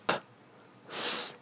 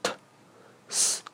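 First: "t" then a soft airy Chinese "s" with the tongue blocking more air. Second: "t" then a soft airy English "s", barely voiced. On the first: Teacher contrasting Chinese with English consonants, Chinese-style. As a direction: demo "t、 s" the Chinese way. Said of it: "中文中的t、". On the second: Teacher contrasting English with Chinese consonants, English-style. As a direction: demo "t、 s" the English way. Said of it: "相对于英文中的t、". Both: Shown as a demonstration.

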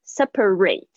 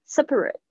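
First: "Separate" ending in a full "-rate" like ray; verb separate. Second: "Separate" with a light, short last syllable; adjective separate. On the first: Teacher showing the verb form to students. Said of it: "是动词". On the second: Teacher showing the adjective form to students. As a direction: swallow the end of "Separate". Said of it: "就是形容词". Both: Shown as a demonstration.

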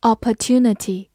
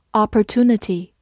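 First: Said in the usual way. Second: "opportunity" said the American way; American pronunciation. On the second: Shown as a demonstration. Teacher showing learners the alternative, American-accented "opportunity". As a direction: give "opportunity" in an American accent, with a plain "too". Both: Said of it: "美式发音也可以读作".

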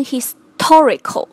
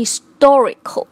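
First: Historical with a hard unaspirated t after s, the wrong way; wrong pronunciation. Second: Historical with the t after s given a breathy aspirated release; correct pronunciation. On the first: Teacher demonstrating the wrong way to say historical, unaspirated t. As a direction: say historical with the t sounding like d, as the mistake. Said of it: "不能发成historical". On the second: Teacher showing students the right way to say historical, aspirated t. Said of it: "而应该是historical". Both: Shown as a demonstration.

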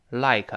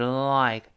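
First: "like" without the lingering l, an added kuh at the end; "like" with a quick l and a released k; wrong reading of "like". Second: "like" with a lingering l, tongue tip pressed forward; held, sticky l opening "like". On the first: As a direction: start "like" abruptly, skipping the held l. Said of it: "不要读like啊". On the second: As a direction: stick the tongue on the l before releasing "like". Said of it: "舌尖往前指是like". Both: Shown as a demonstration.

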